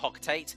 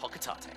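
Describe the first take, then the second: First: The name is pronounced the English way. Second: The name is pronounced the Japanese way. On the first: "in like the English translation, it is meant to be pronounced uh" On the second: "I think that's the uh, the Japanese pronun- pronunciation"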